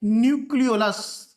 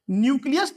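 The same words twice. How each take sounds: First: न्यूक्लियोलस said clearly as nyook-lee-o-lus, falling at the end; teacher firmly giving the right term न्यूक्लियोलस; correct word stressed. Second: Teacher voicing the mistaken न्यूक्लियस before correcting it; wrong word contrasted. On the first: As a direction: land on न्यूक्लियोलस with the extra -o- syllable. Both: Shown as a demonstration. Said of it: "न्यूक्लियस नहीं".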